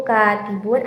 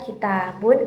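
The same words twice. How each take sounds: First: "katibun" leaning on a held "ka"; "katibun" said KAA-ti-bun; stress on first syllable. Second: "kitabun" leaning on a held "ta"; "kitabun" said ki-TAA-bun; stress on second syllable. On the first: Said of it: "tekanannya terdapat pada huruf kafnya". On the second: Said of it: "tekanan pada huruf taknya". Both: Shown as a demonstration.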